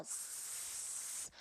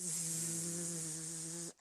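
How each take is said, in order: First: "zzz" as a voiceless hiss like S; "zzz" sem vibração, som de S. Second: "Zzz" as a long voiced buzz; "Zzz" vibrando a garganta. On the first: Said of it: "o som do S". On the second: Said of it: "Fala Z em português". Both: Shown as a demonstration.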